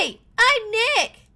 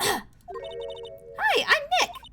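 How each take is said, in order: First: It is said loudly. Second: It is said at a normal, quiet volume.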